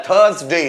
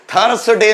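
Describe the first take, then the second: First: थर्सडे said "thuhz-day", no R; careful two-beat थर्सडे, R left silent. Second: थर्सडे with a clearly rolled R, "thur-r-s-day"; spelling-style थर्सडे, R pronounced; wrong, R sounded. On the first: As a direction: say थर्सडे with the R dropped. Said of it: "आर जो है वो silent होता है". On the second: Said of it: "थर्सडे नहीं बोलना है". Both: Shown as a demonstration.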